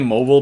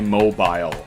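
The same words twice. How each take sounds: First: The word is said with fewer syllables. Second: The word is said with more syllables. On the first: It is quicker to say. The speaker calls it right. "I just say mobile" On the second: It takes more time to say. The speaker calls it wrong. "That's more syllables"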